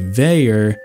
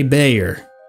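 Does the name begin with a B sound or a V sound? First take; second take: V sound; B sound. First: The name begins with a V sound. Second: The name begins with a B sound. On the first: This is the original Gaelic way. "The Gaelic pronunciation would be Veyer with a V" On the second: This is a non-speaker's anglicized way. "I'm gonna say Bayer"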